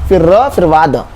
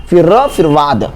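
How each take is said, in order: No difference in how they are said.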